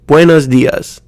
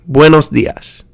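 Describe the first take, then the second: First: Buenos dias as bway-nuhz dee-uhz; Americanized pronunciation. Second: Buenos dias joined up as BWEH-nos DEE-ahs; quicker buenos dias, every syllable still clear; clear Spanish vowels. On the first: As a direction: blur buenos dias with uh vowels and z endings. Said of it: "a sound kinda like uh". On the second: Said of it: "speed it up a little bit". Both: Shown as a demonstration.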